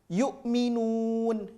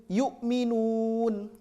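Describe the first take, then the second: No difference in how they are said.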